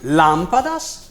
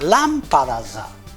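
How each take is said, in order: First: The word ends on a consonant sound. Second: An extra vowel is added at the end. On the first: "termina invece per consonante" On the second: "nel parlato aggiungeremo la cosiddetta paragogica"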